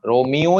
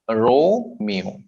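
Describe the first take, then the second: First: Romeo with the middle मि stressed instead of रो; wrong second-syllable stress. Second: Romeo slowly, with a long रो and short मियो; stress on first syllable. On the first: Teacher showing the mistake, Romeo stressed on second syllable. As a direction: push the मि in Romeo, keep रो short. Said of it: "second syllable को ज्यादा नहीं करना". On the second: Teacher showing the right way, Romeo first syllable lengthened. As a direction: stretch the रो in Romeo, then drop. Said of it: "पहले syllable को थोड़ा सा लंबा खींचेंगे". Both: Shown as a demonstration.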